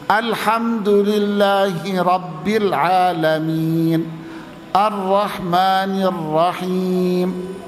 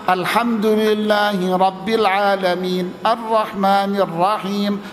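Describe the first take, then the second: First: It is recited at a moderately slow pace. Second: It is recited at a fast pace. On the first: "Tingkatan yang lamban di bawahnya" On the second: "Tingkatan cepat"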